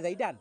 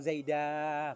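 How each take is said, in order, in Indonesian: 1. Kata itu berakhir dengan a pendek dan n. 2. Kata itu berakhir dengan vokal a yang dipanjangkan. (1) "tadinya Zaidan" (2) "Sekarang Zaida panjang"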